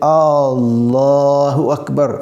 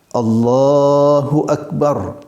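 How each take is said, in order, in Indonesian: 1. Vokal pertama pada Allahu panjang. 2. Vokal pertama pada Allahu pendek.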